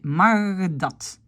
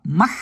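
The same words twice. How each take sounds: First: Mag dat with the G voiced before D; right form. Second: Mag dat with the G kept unvoiced; wrong form. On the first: Teacher shows the correct mag dat, slowly. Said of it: "mais mag dat". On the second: Teacher shows the wrong mag dat. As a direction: say mag dat without voicing the G. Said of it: "je dis pas mag". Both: Shown as a demonstration.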